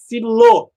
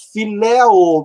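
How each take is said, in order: First: "filô" com ô final tônico; forma contraída. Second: "filéu" com as vogais separadas e tônica no é; forma não contraída. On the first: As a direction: diga "filô" fechando no ô do fim. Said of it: "você vai achar filô". (forma contraída grega) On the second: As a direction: diga "filéu" abrindo o éu do fim. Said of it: "não vai achar filéu no dicionário". (forma antes da contração) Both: Shown as a demonstration.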